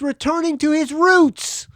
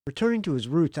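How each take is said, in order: First: High, loud announcer climax; big, triumphant blurb finish; hyped promo read. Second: Said in the usual way. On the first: Acted. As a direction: belt it out like a rock promo.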